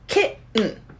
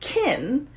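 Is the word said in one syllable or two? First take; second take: two; one. First: The word keeps two syllables. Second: The word is squeezed into one syllable. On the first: The speaker calls it right. "You have to keep it as two" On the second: The speaker calls it wrong. "You can't squish the word into one syllable"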